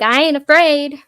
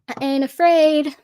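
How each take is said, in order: First: It has a heavy Texan twang. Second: It has a light Texan twang. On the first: "she would have said it with a little more little more twang" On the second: "That was very Texan of me"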